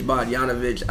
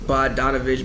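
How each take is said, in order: First: "Bogdanovich" with YAHN in place of DAHN. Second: Unsure, quiet "Bogdanovich" with DAHN in the middle. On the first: Co-host testing the other version of the name, Bogdanovich with Y. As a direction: softly try "Bogdanovich" as bah-YAHN-uh-vitch. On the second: Co-host testing the player's name aloud, Bogdanovich with D. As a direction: try "Bogdanovich" as bah-DAHN-uh-vitch, D sounded. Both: Shown as a demonstration. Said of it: "I'm not sure".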